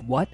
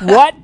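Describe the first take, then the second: First: It is said quietly. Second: It is said very loudly, almost screaming.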